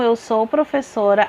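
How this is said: It is said calmly with a falling, statement tune. The speaker asserts a fact.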